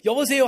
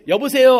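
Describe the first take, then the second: First: Said in the usual way. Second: Loud bright phone hello. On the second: Retold or imitated. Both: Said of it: "한마디밖에 안 했는데".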